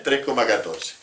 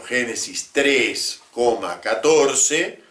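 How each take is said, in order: First: Said in the usual way. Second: Slow dictated citation. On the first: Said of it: "Va todo como si fuera el número pi". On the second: Shown as a demonstration. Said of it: "Por ejemplo".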